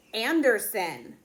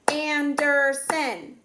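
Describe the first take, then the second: First: Said in the usual way. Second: "Anderson" slow and higher, in three separate beats; "Anderson" stretched into three strong syllables; clapped syllables. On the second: Shown as a demonstration. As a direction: clap out "Anderson", one beat per syllable. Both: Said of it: "Three syllables".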